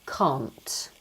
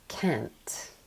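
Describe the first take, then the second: First: It is said in a British accent. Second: It is said with the American open 'a'. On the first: "in Britain, if you're saying the negative form of that word, we would say" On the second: "Americans don't pronounce it this way, okay? So they would say"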